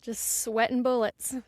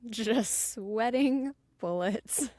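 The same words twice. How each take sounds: First: Said in the usual way. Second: "Just sweating bullets" drawn out slowly; slow repeat. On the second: Shown as a demonstration. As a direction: stretch "sweating bullets" for effect.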